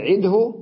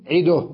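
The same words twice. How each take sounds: First: عده loudly as 'id-hu; higher, still د and voiced hu in عده; original full form. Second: عده loudly as 'iduh; u on the د of عده, stop on h; pause with vowel transfer. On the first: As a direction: say عده with u after the ه. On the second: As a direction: end عده in du plus bare ه. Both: Shown as a demonstration. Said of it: "بدل".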